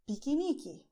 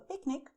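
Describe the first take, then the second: First: It is said with a Brazilian Portuguese pronunciation. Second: It is said with an English pronunciation. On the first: "you say piquenique instead" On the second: "If you want to do a picnic"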